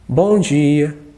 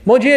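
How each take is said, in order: First: The greeting sounds sad. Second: The greeting sounds indifferent. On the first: "Um bom dia triste" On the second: "Um bom dia indiferente"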